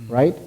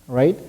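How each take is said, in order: Both takes have the same delivery.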